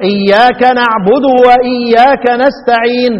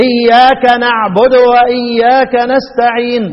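First: اياك نعبد واياك نستعين slowly recited, each short vowel sounded whole; full vowels. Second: اياك نعبد واياك نستعين slowly recited with a short vowel stolen; snatch the short vowel in اياك نعبد, keep the long ones drawn. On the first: Teacher quoting a reciter to students, slow full-vowel recitation. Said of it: "جت كده الحركة". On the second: Teacher showing ikhtilas to students, snatched-vowel recitation. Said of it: "اتخطفت اهي". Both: Shown as a demonstration.

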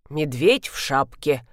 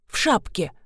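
First: Wry repeat. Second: Said in the usual way. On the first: A narrator's reading. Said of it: "повторила Алевтина Тимофеевна".

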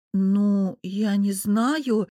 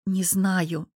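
First: Very slow, drawn-out hesitation; lost and unsure, words dragged out; bewildered drawl. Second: Plain, honest confession; understated candour; honest admission. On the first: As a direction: stretch it out, at a loss. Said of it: "растерянно протянула я". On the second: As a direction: admit it simply and frankly. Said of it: "честно созналась я". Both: A narrator's reading.

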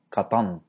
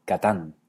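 First: Katán con la t velarizada; katán enfático. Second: Katán con t simple; katán normal. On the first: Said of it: "se pronuncia no". (katán a la antigua) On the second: (katán israelí) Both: Shown as a demonstration.

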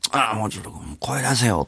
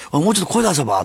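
First: Whispered thought. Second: Said in the usual way. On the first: Retold or imitated. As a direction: whisper it to yourself from the stands. Inner thought while watching kids. (心の中でささやくように)

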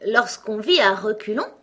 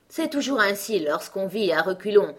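First: Louder, higher, rising on "vit"; astonished. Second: A touch of kindness on "vit à reculons", falling calmly; gently explain, like a patient queen; kindly. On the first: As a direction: echo it in disbelief. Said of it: "répéta Alice stupéfaite". (Alice répète, stupéfaite, plus haut et plus fort) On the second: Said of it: "d'un ton bienveillant". (la reine, d'un ton légèrement bienveillant) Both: A narrator's reading.

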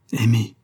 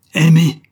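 First: Restrained, falling echo of disbelief; white with fury. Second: Loud, high furious echo; white with fury. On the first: Husband echoing his wife's confession, contained fury. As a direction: repeat the word with contained fury. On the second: Husband repeating his wife's confession, exploding in fury. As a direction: throw the word back, enraged. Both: A narrator's reading. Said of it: "dit-il blanc de fureur".

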